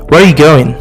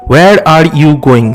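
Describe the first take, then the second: First: The word are is dropped entirely. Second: All four words are said, including are.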